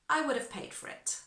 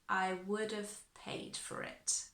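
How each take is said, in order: First: The sentence is said faster. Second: The sentence is said slowly. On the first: "And a bit faster" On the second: "I'll do it nice and slowly"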